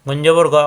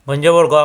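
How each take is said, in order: Both takes have the same delivery.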